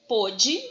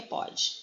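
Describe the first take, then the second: First: "Pôde" with a closed o, set out on its own; timbre fechado. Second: "pode" with an open o; timbre aberto. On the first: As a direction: say "Pôde" with the close o of the past tense. ("Pôde" com o fechado, bem destacado) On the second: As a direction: say "pode" with the open o of the present tense. ("pode" com o aberto, do presente) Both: Shown as a demonstration. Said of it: "É um acento diferencial de timbre".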